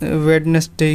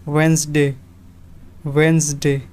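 First: वेडनेसडे with every letter sounded, wed-nes-day; wrong pronunciation. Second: वेडनेसडे said as wenz-day, the d silent; two syllables, wenz-day; correct pronunciation. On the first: Teacher showing students the wrong way, spelled-out. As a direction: spell it out as written, three syllables. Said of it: "इसको वेडनेसडे नहीं बोलते हैं". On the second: Teacher showing students the right way, d dropped. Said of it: "सही pronunciation है". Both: Shown as a demonstration.

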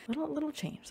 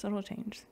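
First: Sing-song. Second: Whispered. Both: Shown as a demonstration.

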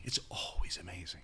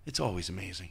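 First: Softer unvoiced whisper of It's always amazing. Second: Said in the usual way. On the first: Shown as a demonstration. An awed whisper of It's always amazing. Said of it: "repeated as whisper". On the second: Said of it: "repeated softly".

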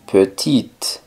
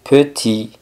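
First: Petite ending on a crisp T, silent E; sounded final T. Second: Petit with the final T left silent, "puh-TEE". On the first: Teacher models the feminine word for learners, petite with sounded T. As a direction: say petite as "puh-TEET". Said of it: "pronunciando la T pero no la E". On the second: Teacher models the masculine word for learners, petit with silent T. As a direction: end petit on a clear "ee", no T. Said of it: "sin pronunciar la T". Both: Shown as a demonstration.

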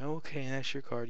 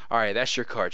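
First: Timid, hesitant and higher; squeamish, wimpy. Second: Firm, assured and louder; confident, in charge. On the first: Magician forcing a card, meek and unsure. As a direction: hand over the card like you're scared of it. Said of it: "a squeamish little wimpy attitude". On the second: Magician presenting the forced card, bold and sure. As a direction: own the moment, no doubt at all. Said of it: "you wanna have the right attitude". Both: Shown as a demonstration.

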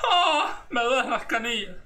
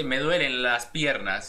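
First: High, crying moan about aching shins; whimpering complaint. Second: Said in the usual way. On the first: Shown as a demonstration. Creator demos grandma's complaint with a fake cry. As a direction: whine like your shins are killing you. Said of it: "Se dice". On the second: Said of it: "No se dice".

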